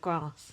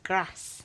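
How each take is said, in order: First: Grass is said with a southern English vowel. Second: Grass is said with a northern English vowel. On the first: This is how she said it before moving. "instead of grass" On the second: This is how she says it since moving to Leeds. "she moved to Leeds and now she says grass"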